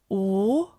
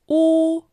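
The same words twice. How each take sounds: First: The pitch rises from mid to high. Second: The pitch stays high and level.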